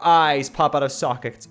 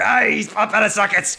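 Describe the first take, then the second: First: It is read in a plain everyday voice. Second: It is read in a put-on cartoon voice. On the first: The speaker calls it wrong. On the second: The speaker calls it right.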